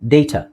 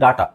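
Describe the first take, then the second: First: It is said the standard way. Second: It is said the common Indian way. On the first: "correct pronunciation ಡೇಟಾ" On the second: "ನಾವು common ಆಗಿ India ಇಂಡಿಯಾದಲ್ಲಿ ನಾವು ಹೇಳೋದು ಡಾಟಾ"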